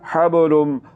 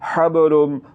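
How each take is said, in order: No difference in how they are said.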